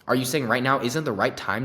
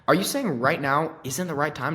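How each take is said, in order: First: It is said in a pushy, confrontational way. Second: It is said in a friendly, understanding way. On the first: The listener is being challenged and will feel annoyed. The speaker calls it wrong. "you don't have to be a dick about it" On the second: The listener's position is respected while still being asked. The speaker calls it right. "no, dude, of course, I totally understand"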